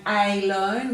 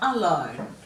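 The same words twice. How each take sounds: First: The first vowel is a long 'ay' sound. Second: The first vowel is a short 'uh' sound. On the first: "we would give that a long A sound" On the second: "we give it a bit of a grunt sound"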